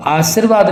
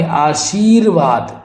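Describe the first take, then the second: First: आशीर्वाद with short plain "sir"; wrong pronunciation. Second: आशीर्वाद slowly, with long "sheer"; correct pronunciation. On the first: Teacher rejecting the error, आशीर्वाद with plain s. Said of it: "आशीर्वाद नहीं". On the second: Teacher correcting it, आशीर्वाद with stretched shee. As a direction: say आशीर्वाद as "aa-sheer-vaad", drawn out. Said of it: "बड़ी की मात्रा लगेगी". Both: Shown as a demonstration.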